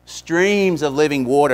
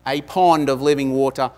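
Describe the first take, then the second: First: "Streams" stressed slowly with a laugh as the right reading; corrected word, slow. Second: "pond" stressed as the planted mistake, said with mock confidence; preacher tests the congregation with "pond", leaning on the wrong word; deliberately wrong word. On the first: Preacher corrects the misquote, slowly stressing "Streams". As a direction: give "Streams" full weight after the correction. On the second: Preacher tests congregation, stressing wrong word "pond". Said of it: "uh, fallacious". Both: Shown as a demonstration.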